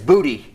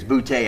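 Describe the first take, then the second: First: The name ends with an 'ee' sound. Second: The name ends with an 'ay' sound. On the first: The speaker calls it right. "but it's it's Booty" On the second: The speaker calls it wrong. "I've been saying his name wrong"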